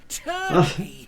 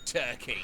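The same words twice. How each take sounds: First: TURKEY pitched high and loud; emphatic repeat. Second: Said in the usual way. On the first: Retold or imitated. Niece repeats herself to the adult, TURKEY high and emphatic. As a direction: punch TURKEY hard as a defiant repeat. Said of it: "didn't you hear? I said".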